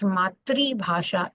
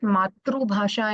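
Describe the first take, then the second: First: The first word ends with an 'ee' sound. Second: The first word ends with an 'oo' sound. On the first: The speaker calls it right. "it is Matri Bhasha in Hindi" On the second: The speaker calls it wrong. "we don't call it Matru Bhasha in Hindi"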